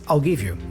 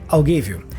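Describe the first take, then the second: First: I will is contracted into one syllable. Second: The same.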